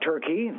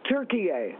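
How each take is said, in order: First: The name is said with two syllables. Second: The name is said with three syllables. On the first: The speaker calls it wrong. "It's not turkey. They're not a chicken" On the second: The speaker calls it right. "the correct pronunciation"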